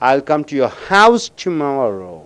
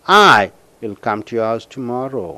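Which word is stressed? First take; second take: house; I. First: The word house is stressed. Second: The word I is stressed. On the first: The speaker will come to the house, not elsewhere. "அந்த ஹவுஸுக்கு அழுத்தம் கொடுக்கும் பொழுது" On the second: The speaker will come alone. "When you stress for I, see here"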